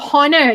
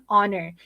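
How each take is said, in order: First: The word begins with an audible H sound. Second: The word begins with no H sound. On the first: The speaker calls it wrong. "you don't say honor" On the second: The speaker calls it right. "you say honor"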